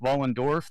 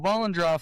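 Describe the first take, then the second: First: The name ends with the sounds 'dorf'. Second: The name ends with the sounds 'droff'. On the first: This is the actual pronunciation. The speaker calls it right. "is actually pronounced Vollendorf" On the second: This is how most people say it. The speaker calls it wrong. "everyone says Vollendroff"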